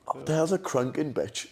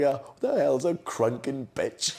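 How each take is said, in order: First: Laughing baffled Dad, repeated. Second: Slow, laughing baffled Dad. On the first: Retelling Dad's question to his brother, laughing. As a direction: redo the quote while cracking up. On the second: Dad asking Stu about his night out, laughing. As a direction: drag it out, cracking up. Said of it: "Dad was like". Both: Retold or imitated.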